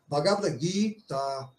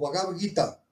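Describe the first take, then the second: First: The i and a vowels are long. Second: The i and a vowels are short. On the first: The speaker calls it right. "o I e o A devem ser pronunciados de maneira alongada" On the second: The speaker calls it wrong. "Muita gente falando assim"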